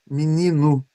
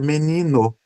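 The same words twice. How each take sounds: First: The vowels are pronounced as i and u. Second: The vowels are pronounced as e and o. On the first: "troco o E por I e troco o U, o O por U" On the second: "com E e com O"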